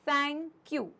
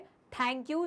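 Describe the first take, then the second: First: The 'th' lets air hiss between tongue and teeth. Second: The 'th' is a hard aspirated stop. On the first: The speaker calls it right. "क्या बोलेंगे, थैंक you, correct" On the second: The speaker calls it wrong. "थैंक you नहीं बोलेंगे"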